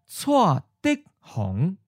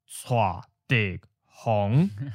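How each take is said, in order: First: The first two syllables are said in changed tones. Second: All three syllables keep their citation tones. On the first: The speaker calls it right. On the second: The speaker calls it wrong. "it's not"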